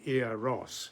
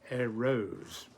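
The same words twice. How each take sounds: First: The first syllable is long, the second short. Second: The first syllable is short, the second long. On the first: This is the modern way of saying the name. "Instead of saying Eros" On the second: This is how the ancient Greeks said the name. "The first syllable short, the second long"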